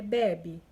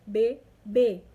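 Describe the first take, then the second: First: Bebe stressed on the first BE; stress on first syllable. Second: Bebê stressed loudly on closed last Ê; stress on final Ê. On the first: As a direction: punch the start of bebe, loudly. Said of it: "que aí se torna bebê". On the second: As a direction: land hard on the end of bebê. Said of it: "circunflexo aí no último E". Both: Shown as a demonstration.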